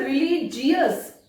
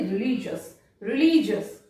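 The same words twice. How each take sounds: First: रिलीजियस with an extra ee-us at the end, slowly; wrong reading. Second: रिलीजियस said as religious, ending in jus; right reading. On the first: Teacher imitating the students' wrong reading, slowly. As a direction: say रिलीजियस as re-li-ji-yus, the mistake. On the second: Teacher giving the correct reading to students. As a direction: close रिलीजियस on a short jus. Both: Shown as a demonstration. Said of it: "रिलीजियस नहीं".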